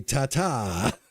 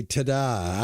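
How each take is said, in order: First: "Ta-ta" with a t, ta-TA. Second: "Ta-da" with a d, ta-DA. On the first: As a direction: say "Ta-ta" with a t in the second syllable. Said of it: "I say". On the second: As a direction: say "Ta-da" with a d in the second syllable. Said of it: "you say". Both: Retold or imitated.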